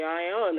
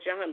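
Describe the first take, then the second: First: The name begins with a soft vowel sound. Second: The name begins with a hard J sound. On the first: This is how the old spelling would be read today. "today we would say Ion or something" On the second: This is how it may have sounded back then. "at the time it might have said John"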